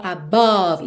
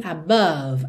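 First: ABOVE with an open O, "a-BAWV"; wrong O sound. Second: ABOVE as "a-BUV"; correct vowel. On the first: Teacher showing the mistake, ABOVE said as "a-BAWV". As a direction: say the middle of ABOVE as a real O. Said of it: "o O do meio não é realmente um O". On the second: Teacher giving the correction, ABOVE as "a-BUV". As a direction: use an uh sound in the middle of ABOVE. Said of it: "e sim above". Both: Shown as a demonstration.

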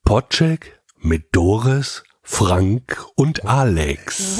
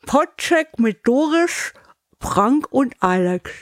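First: Slow, crisp Podcheck mit Doris; careful articulation. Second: Slow, muffled through a cork; cork in mouth. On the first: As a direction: articulate every consonant slowly. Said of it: "wird die Aussprache wirklich besser". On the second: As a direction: speak with a cork between teeth. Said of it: "und jetzt machen wir". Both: Shown as a demonstration.

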